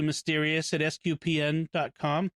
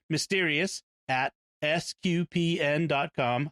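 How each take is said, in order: First: It is said quickly at normal talking speed. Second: It is said slowly with each part clearly enunciated. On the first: "I know I talk fast" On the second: "I want to say that slowly"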